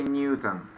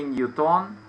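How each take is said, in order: First: "Newton" with stress on the first syllable; English "Newton", weak last syllable; English pronunciation. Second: "Newton" with stress on the second syllable; Russian-style "Newton", full o in the last syllable; Russian pronunciation. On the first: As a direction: say "Newton" as NYU-tn. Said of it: "in English we say Newton". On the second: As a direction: say "Newton" as nyu-TON. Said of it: "in Russian we say Newton". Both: Shown as a demonstration.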